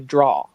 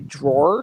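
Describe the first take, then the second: First: The word ends without an R sound. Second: The word ends with an R sound. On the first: "she would say draw, like open the draw, and that's very English" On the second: "she wouldn't say drawer"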